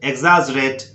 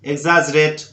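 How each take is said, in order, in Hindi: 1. x की ध्वनि egz जैसी होती है। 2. x की ध्वनि egz जैसी होती है।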